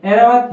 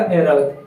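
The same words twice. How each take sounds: First: एरावत opening on a plain "e"; wrong e vowel. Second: ऐरावत opening on a drawn "ai"; correct ai vowel. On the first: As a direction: begin एरावत with "e", not "ai". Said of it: "तो इसका ये ऐ लगा हुआ होगा". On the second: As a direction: begin ऐरावत low, with "ai". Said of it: "ऐ लगा हुआ होगा ऐरावत". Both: Shown as a demonstration.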